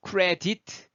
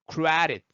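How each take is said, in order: First: CREDIT with a hard T-like middle, rising; wrong pronunciation. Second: CREDIT with D softened to a quick tap, "CRE-rit"; flapped D. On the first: Teacher showing what to avoid, wrong pronunciation. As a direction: say CREDIT as "keu-re-tit", every syllable full. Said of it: "하지 마시고요". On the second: Teacher showing the sound flowing, flapped D. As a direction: stress CRE, let the D flow. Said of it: "소리가 흘렀죠?". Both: Shown as a demonstration.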